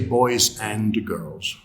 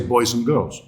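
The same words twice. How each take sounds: First: The word 'and' is pronounced fully. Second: The word 'and' is reduced to 'un'. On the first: The speaker calls it wrong. "We don't say" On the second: The speaker calls it right. "The and is weak"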